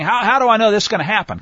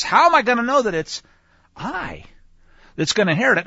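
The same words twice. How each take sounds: First: Said in the usual way. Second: "I" held apart between two pauses; stress on I. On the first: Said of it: "He's not asking". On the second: Shown as a demonstration. Teacher rephrasing Abram's question by its emphasis, stress on "I". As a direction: pause before "I" and single it out. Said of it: "a slightly different emphasis".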